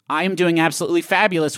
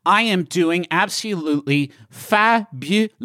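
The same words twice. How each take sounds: First: Said in the usual way. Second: Slow posh drawl, fabulous stretched; posh accent. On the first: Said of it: "would be". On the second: Shown as a demonstration. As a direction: stretch the last vowels, very posh. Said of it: "How posh did I just sound".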